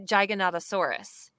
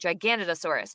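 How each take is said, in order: First: The word's opening does not sound like 'Canada'. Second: The word's opening sounds like 'Canada'. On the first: The speaker calls it wrong. "I wanted to say Giganotosaurus" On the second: The speaker calls it right. "I had to retrain my brain to think Giganotosaurus"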